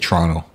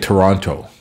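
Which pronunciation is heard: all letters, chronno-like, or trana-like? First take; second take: chronno-like; all letters. First: The first T sounds like CH; second T silent. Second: Every letter is pronounced, including both T sounds. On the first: The speaker is a local. "The second T, it's not even there. It's silent. And the first one is kind of like a CH" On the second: The speaker is from out of town. "People from out of town tend to pronounce all the letters"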